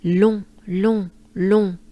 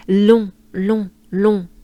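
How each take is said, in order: First: Long louder, nasal French on; French nasal long, together. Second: Long said louder, nasal French on. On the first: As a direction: chant long with a good breath. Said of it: "let's do it once together with a good breath". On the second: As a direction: punch the nasal long loudly. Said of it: "into long with a L". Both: Shown as a demonstration.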